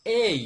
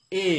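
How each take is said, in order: First: "এই" loud and higher, e gliding into short i; correct letter A. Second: "এ" as one pure e vowel, no glide; common wrong A. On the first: Teacher corrects the learners' A, "এই" loud with a gliding i ending. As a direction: punch "এই" as a clear e-to-i diphthong. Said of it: "বিশুদ্ধ উচ্চারণটা হবে". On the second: Teacher mimics what we usually say, "এ" without any i glide. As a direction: hold "এ" on a plain Bengali e. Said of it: "আমরা বলি কি". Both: Shown as a demonstration.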